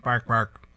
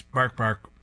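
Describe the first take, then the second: First: Barking. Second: Mimicked bark-bark; barking repeated. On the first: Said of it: "a dog is barking". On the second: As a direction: copy the TV bark. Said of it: "The dog repeats". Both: A narrator's reading.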